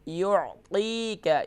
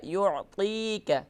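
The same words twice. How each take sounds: Both takes have the same delivery.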